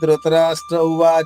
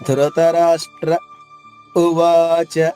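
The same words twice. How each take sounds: First: The two words run together with no pause. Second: A full stop comes before the second word. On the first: The speaker calls it wrong. "ఆగకుండా పాడేస్తే" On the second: The speaker calls it right. "పూర్తిగా ఆగిపోయి ఉ అనేది గొంతు నుంచి చెప్పాలి"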